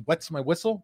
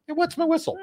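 First: Said in the usual way. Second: Jumps up high for the idiom; high playful voice. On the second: Shown as a demonstration. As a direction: pitch it way up, tongue in cheek. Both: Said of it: "what's the word I'm looking for".

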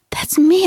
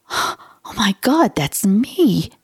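First: High, bright leap up on me; excited recognition. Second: A touch of retold shock, rising on God; reliving the moment she first read it; stunned realization. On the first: Retold or imitated. Finding her own symptoms online, excited high squeal. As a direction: squeal it as the truth hits. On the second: Reading about a stranger's symptoms, mild astonishment. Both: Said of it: "I went".

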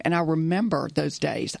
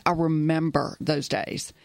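First: Said in the usual way. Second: "I" leaned on, the whole line slowed, wistful; slower, stress on I. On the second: Shown as a demonstration. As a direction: land on "I" in "I remember those days" and let it linger.

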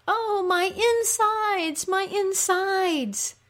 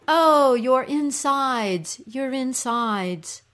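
First: Very high, long-drawn wail; moaning cry. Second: Slow, raised, sympathetic moan; echoed cry. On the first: Ereshkigal moaning like a woman in labor, moaning cry. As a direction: moan slowly and high, in agony. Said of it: "Ereshkigal cries out". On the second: Little creatures echoing the queen's pain, echoed cry. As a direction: echo her pain with stretched words. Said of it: "the little creatures cry". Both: Acted.

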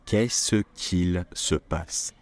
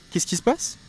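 First: Said in the usual way. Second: Much higher, rising astonished question; high startled what's going on; surprised. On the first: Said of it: "we don't say it that way". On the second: Shown as a demonstration. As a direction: ask in amazement. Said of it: "depending on how you use your voice".

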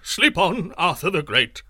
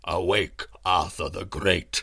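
First: Scared sorcerer shouting at the king; frightened shout. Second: Low, slow, resonant summons; lightly voiced deep herald calling; great voice. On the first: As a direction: urge the king back to sleep in a panic. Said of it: "shouted the sorcerer". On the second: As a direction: call the king awake with a deep voice. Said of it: "said the voice again". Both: A narrator's reading.

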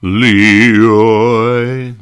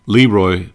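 First: Leroy stretched out, loud and higher; Gildersleeve scolding. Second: Said in the usual way. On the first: Retold or imitated. Gildersleeve calling his nephew, pompous and loud. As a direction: drawl the name like a pompous uncle. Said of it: "you'd hear Gildersleeve say".

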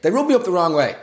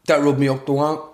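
First: Said in the usual way. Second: "rub me up the wrong" slurred, r sounding like w; tongue-tied slip. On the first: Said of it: "yeah, that's it". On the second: Real, not acted. Podcaster fluffing a phrase, "rub me up the wrong" tongue-tied. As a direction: stumble through "rub me up the wrong", mushing the consonants. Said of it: "oh God, I'm having a stroke".

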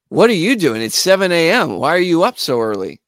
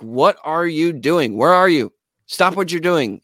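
First: Higher, louder, mildly incredulous retort. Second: Insistent. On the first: Drummer questions a seven A M call, mildly incredulous. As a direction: act out a baffled friend. Retold Tony, startled by early call. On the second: Bandleader phones his drummer, insistent and deliberate. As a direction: press each word in a retold demand. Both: Retold or imitated.

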